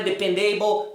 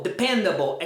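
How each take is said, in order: First: "dependable" with a full AY-bol ending; wrong pronunciation. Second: Weak falling ending on "dependable"; correct pronunciation. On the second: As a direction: lower "dependable" stressed on PEN. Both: Shown as a demonstration. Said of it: "não é dependable".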